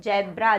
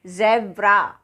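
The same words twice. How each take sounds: First: "ज़ेब्रा" mispronounced as jebra; j instead of z. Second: "ज़ेब्रा" as zebra, slow, buzzing z; buzzed z. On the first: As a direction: start "ज़ेब्रा" with a j. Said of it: "इसको ज़ेब्रा नहीं बोलेंगे". ("ज़ेब्रा" को ज से जेब्रा) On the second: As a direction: slowly model z in "ज़ेब्रा". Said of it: "इसको हम बोलेंगे". ("ज़ेब्रा" को ज़ से, धीरे) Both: Shown as a demonstration.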